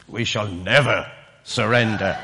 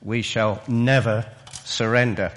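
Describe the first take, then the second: First: A light imitation of Churchill's drawl, low and slow; hint at the famous wartime drawl. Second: Said in the usual way. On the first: Preacher imitating Churchill's drawl for the congregation, mildly done. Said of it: "his well-known drawl". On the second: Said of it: "I can't say it in the same way as he said".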